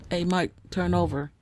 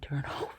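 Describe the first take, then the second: First: Raised voice to wake someone; calling out. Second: Soft whisper with a laugh. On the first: Real, not acted. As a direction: call across the room to him. Calling to snoring husband. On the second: Acted. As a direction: whisper it so he stays asleep. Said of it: "So you gotta tell your husband".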